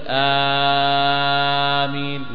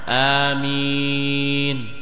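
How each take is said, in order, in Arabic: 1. يُمَدّ الحرف الأول مدًّا طويلًا جدًا. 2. يُمَدّ الحرف الأول لمدة حركتين. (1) "ولا تمده كثير، لا تقول آمين" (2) "جهر مع مد"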